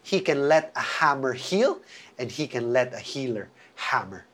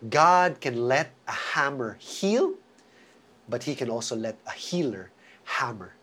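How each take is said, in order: First: It is said at normal speed. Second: It is said very slowly.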